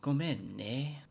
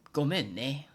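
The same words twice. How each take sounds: First: "Gomen ne" slowed, the "ne" drawn out and stressed; "Gomen ne" with a slow, leaning "ne"; emphasis on ne. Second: "Gomen ne" with a light rising "ne"; "Gomen ne" with a plain, light ne. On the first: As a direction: lean into the "ne" of "Gomen ne". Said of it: "put some more emphasis on the ne". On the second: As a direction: say "Gomen ne" with a casual rise on ne. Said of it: "this one's given between close friends". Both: Shown as a demonstration.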